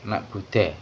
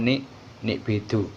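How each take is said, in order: First: The vowels run a, u, e. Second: The vowels run i, i, u. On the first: "dibaca nak nak bude" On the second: "atau nik nik bidu"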